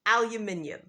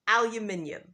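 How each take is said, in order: First: It is said in a British accent. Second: The same.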